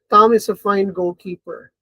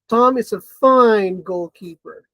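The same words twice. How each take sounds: First: It is said as a plain, neutral statement. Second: It is said in a mocking, sarcastic tone. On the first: Tom really is a good goalkeeper. "So plain statement" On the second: Tom is actually a poor goalkeeper.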